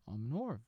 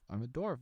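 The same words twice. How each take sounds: First: "orf" for dwarf, opening d-w sounds dropped. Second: Said in the usual way. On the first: Pretend. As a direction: say "orf" with no d or w at the start. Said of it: "What did I say?". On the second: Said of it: "no, I'm a dwarf".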